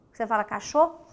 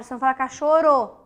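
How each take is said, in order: First: Cachorro said with a strong guttural rr; right R. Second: Cachorro said with a light tapped r, faster and louder; wrong R. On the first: Teacher showing pupils the right way, cachorro with a strong R. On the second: Teacher showing pupils the wrong way, cachorro with a weak r. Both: Shown as a demonstration.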